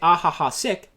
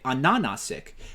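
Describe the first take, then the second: First: The h sounds are pronounced as a breathy huh. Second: The h sounds in the name are not pronounced. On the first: "in America, we pronounce that as huh" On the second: "I'm pretty sure I'm supposed to say Anana Sick"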